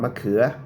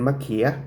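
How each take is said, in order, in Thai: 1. สระนี้คือสระประสม 'uea' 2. สระนี้คือสระประสม 'ia' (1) "จะพูดสระเอือเป็นสระเอีย" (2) "สำเนียงดั้งเดิมของคนเมืองเวียงจันทร์"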